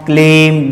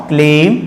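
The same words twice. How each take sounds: Both takes have the same delivery.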